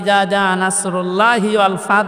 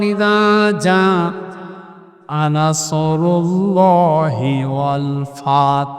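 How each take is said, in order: First: The s in nasr is a light, plain sound. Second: The s in nasr is a deep, emphatic sound. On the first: An eagle will come, bringing victory. The speaker calls it wrong. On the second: Help from God will come, bringing victory. The speaker calls it right.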